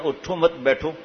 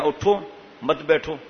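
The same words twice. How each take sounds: First: "اٹھو مت" run together as one phrase, then "بیٹھو"; group مت with اٹھو, lifting on مت before بیٹھو; pause after مت. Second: "اٹھو" alone, raised, then "مت بیٹھو" together; pause after اٹھو. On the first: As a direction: break after مت, so it means don't get up, sit. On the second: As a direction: break after اٹھو, so it means get up, don't sit. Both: Shown as a demonstration. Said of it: "ہاں، یا".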